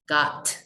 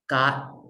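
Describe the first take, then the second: First: The final T is fully released. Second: The final T is held in the throat. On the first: The speaker calls it wrong. "It's not got" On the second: The speaker calls it right. "We also hold it at the end of a word"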